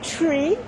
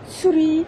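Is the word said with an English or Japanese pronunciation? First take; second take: English; Japanese. First: It is said with an English pronunciation. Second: It is said with a Japanese pronunciation. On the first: "si tu la prononces à l'anglais" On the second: "si tu le prononces à la japonaise"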